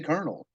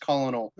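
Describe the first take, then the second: First: It does not start like colon. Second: It starts like the word colon. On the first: This is how it is really said aloud. "I say colonel because I know it's the word colonel now" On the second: This is how it looks on the page. "that's how I read it in my head as colonel"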